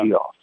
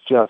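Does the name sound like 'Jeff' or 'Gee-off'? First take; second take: Gee-off; Jeff. First: The name is said as two syllables, 'Gee-off'. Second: The name is said as one syllable, 'Jeff'. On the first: The speaker calls it wrong. "people say" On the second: The speaker calls it right. "it's Jeff"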